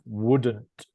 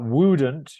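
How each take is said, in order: First: The vowel sound in the word is short. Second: The vowel sound in the word is long. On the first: The speaker calls it right. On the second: The speaker calls it wrong.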